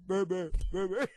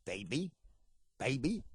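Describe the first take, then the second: First: Put-on "baby" blurred into a crude "beb-beb"; imitated deaf churchgoer. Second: Put-on low prompting "baby", each rising at the end; Ernest Angley impression. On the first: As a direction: echo "baby" as a mock garbled attempt. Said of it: "They'd go". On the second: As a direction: prompt a deaf person to repeat "baby". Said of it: "snap his fingers in there and go".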